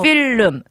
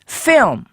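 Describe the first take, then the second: First: Every syllable gets equal stress. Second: The stress falls on the first vowel. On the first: "우리는 필름 할 때 강세가 다 들어가요" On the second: "앞쪽 모음 소리에다 강세를 둬야 되거든요"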